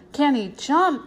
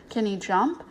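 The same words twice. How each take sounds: First: "Can he jump" higher and emphatic, falling at the end; boastful echo. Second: Said in the usual way. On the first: A narrator's reading. Toby bragging to Janet, "Can he jump" as emphatic echo.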